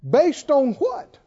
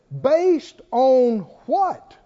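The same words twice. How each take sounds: First: "what?" lifted on a rising tune; challenging rise on "what?"; rising question. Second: Slow, drawn-out question, falling at the end. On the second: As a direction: let "what?" drop down, slow and heavy. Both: Shown as a demonstration.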